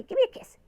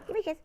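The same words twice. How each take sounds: First: High squeaky coaxing. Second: Said in the usual way. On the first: Shown as a demonstration.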